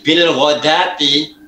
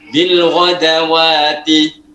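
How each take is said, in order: First: The word is said without an extra syllable. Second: The word is said with an extra 'wa' syllable. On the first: The speaker calls it right. "wawunya ada alif kecil" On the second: The speaker calls it wrong. "Orang Indonesia nggak tahu itu, bacanya ini bil wadawati"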